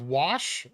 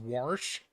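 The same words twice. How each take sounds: First: It is said with the speaker's plain accent. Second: It is said with a back-east regional accent. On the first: "instead of" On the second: "My grandpa from back east says"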